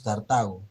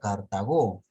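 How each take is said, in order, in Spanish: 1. El acento está en la sílaba del medio. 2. El acento está en la última sílaba. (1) "la mayor fuerza de voz está en la, en la ta" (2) "A menos que tenga tilde en la o"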